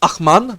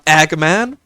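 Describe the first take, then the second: First: The first consonant is a throaty rasping sound. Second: The first consonant is a hard g sound. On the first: The speaker calls it right. "technically this is pronounced Achman" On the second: The speaker calls it wrong. "not um, Agman"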